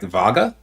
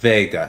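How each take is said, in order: First: The first syllable is said like 'va'. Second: The first syllable is said like 've'. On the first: Someone else mispronounced the name. The speaker calls it wrong. "they were like Vaga" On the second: This is how the name is really said. The speaker calls it right. "No, it's Vega"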